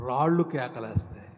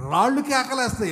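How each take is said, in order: First: Said in the usual way. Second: రాళ్ళు hit higher and louder, falling on కేకలేస్తాయి; emphatic repeat. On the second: Acted. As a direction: proclaim రాళ్ళు కేకలేస్తాయి with force. Repeated with force. (రాళ్ళు అనే పదాన్ని గట్టిగా, ఎత్తుగా నొక్కి చెప్పడం)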